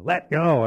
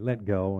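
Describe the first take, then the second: First: It is said with strong, forceful emphasis. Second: It is said plainly, without extra force.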